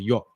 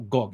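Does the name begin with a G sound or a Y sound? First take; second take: Y; G. First: The name begins with a Y sound. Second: The name begins with a hard G sound. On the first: The speaker calls it right. "You just say Yok" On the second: The speaker calls it wrong. "It's not Gok"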